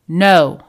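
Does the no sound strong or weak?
strong. The no sounds strong and firm.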